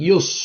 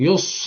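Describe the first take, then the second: No difference in how they are said.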